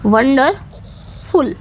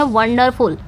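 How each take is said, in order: First: wonderful very slowly, broken up with a long pause before फुल; split into syllables. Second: Said in the usual way. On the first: Shown as a demonstration. Teacher dividing a word for students, wonderful slowly syllable by syllable. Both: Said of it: "तीन में divide कर दिया है".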